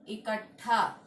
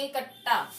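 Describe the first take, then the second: First: इकट्ठा said as "ikat-tha", with a puff of air; correct aspirated ठ. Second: इकट्ठा said as "ikatta", no puff of air; wrong unaspirated ट. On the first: Teacher correcting the word, इकट्ठा with aspirated "ttha". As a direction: aspirate the end of इकट्ठा clearly. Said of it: "क्या होता है". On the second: Teacher showing the mistake, इकट्ठा with unaspirated "tta". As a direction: drop the aspiration in इकट्ठा, ending in a hard "tta". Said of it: "तो इकट्ठा नहीं होता है". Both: Shown as a demonstration.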